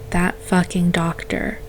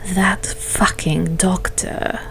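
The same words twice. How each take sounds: First: It is said in the narrator's own voice. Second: It is said in Vare's put-on voice.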